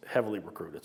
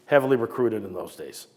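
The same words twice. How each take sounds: First: "heavily recruited" repeated softly, falling away; quiet echo. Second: Said in the usual way. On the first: Shown as a demonstration. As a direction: drop the voice on "heavily recruited" as an afterthought.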